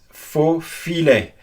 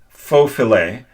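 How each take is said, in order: First: The I in filet has a French sound. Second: The I in filet has an English sound. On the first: The speaker calls it right. "it's supposed to be pronounced faux filet" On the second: The speaker calls it wrong. "instead of pronouncing faux filet"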